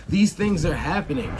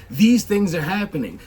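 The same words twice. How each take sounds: The two takes are said the same way.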